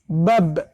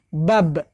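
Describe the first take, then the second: The two takes are said the same way.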